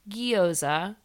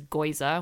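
First: The word begins with a gyo sound. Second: The word begins with a goi sound. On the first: The speaker calls it right. "That's how you say it" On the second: The speaker calls it wrong. "My boyfriend says goiza, which is absolutely wrong"

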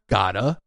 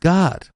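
First: The word ends with an extra vowel added. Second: The word ends cleanly on the final consonant. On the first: The speaker calls it wrong. "It's not gotta" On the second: The speaker calls it right. "It's God"

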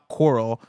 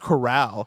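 First: It sounds like the word for ocean reefs. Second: It sounds like the word for an animal pen. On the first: The speaker calls it wrong. "like the word coral as in the ocean organisms" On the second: The speaker calls it right. "The word should be pronounced corral, as in the country style containment"

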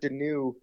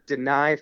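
First: The last syllable sounds like 'new'. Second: The last syllable sounds like 'nai'. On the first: The speaker calls it wrong. "which I've been calling him Carter Denew until yesterday" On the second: The speaker calls it right. "you know it's Denai, right?"

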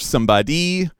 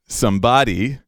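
First: The stress is on the third syllable. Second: The stress is on the second syllable. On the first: "We've heard Taylor do it on the third" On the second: "Second syllable"

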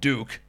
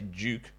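First: It is said in an American accent, like 'dook'. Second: It is said in a non-American accent, with 'dyook'. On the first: "in my proper American accent" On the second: "we say Duke"

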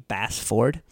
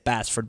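First: The name is pronounced slowly and fully. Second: The name is pronounced quickly and casually. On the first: This is the precise pronunciation of the name. "If we were actually going to pronounce it perfectly every time, it'd be" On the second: This is the everyday pronunciation of the name. "So we just say it quick and easy, and it's"

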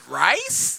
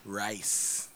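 First: The voice rises at the end like a question. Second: The voice falls at the end like a statement. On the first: It is offered as a question. "I said rice? Does that count? Can I do it like that?" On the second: It is given as a plain answer. "you didn't form it in the question"

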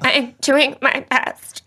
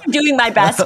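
First: It is said in a hurt, wounded tone. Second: It is said in a flat, neutral tone.

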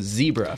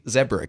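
First: It is said with an American pronunciation. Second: It is said with a British pronunciation.

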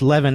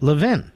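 First: The name is said the widespread, general way. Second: The name is said the local Philadelphia way. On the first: "it's pronounced Levin everywhere but in Philadelphia" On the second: "And they pronounce it Levin"

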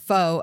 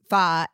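First: The word is said with a long 'oh' vowel, like 'foe'. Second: The word is said with a short 'uh' vowel, like 'fuh'. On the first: This is how the speaker used to say it. The speaker calls it wrong. "I called it pho up until this year" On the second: This is how the dish is really named. The speaker calls it right. "I didn't know until this year it was pho"

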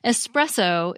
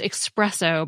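First: The word begins with an 'es' sound. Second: The word begins with an 'eks' sound. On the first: "even though there's no X in the spelling" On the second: "is pronounced expresso by many people"

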